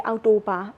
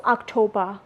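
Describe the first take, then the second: First: OCTOBER as "ow-toh-BA", no K; Burmese pronunciation. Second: OCTOBER with a K sound, "ok-TOH-ba"; English pronunciation. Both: Shown as a demonstration. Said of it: "We say October".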